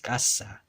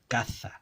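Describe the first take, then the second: First: The middle consonant is an s sound. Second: The middle consonant is a th sound. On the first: This is the older pronunciation. "this Z made a S sound" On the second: This is the later pronunciation. "the Th sound"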